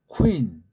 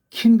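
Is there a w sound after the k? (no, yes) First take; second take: yes; no. First: It starts with k followed by a w. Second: It starts with a plain k, no w. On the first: The speaker calls it right. "우 위로 발음해요" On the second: The speaker calls it wrong. "이걸 뭐 킨 그러면 안 되잖아요"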